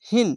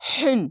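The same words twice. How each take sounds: First: The h is soft and plain. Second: The h is harsh and throaty. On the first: The speaker calls it right. "নর্মালভাবে হিন" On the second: The speaker calls it wrong. "যদি এরকম হা হলে হিন এরকম হতো"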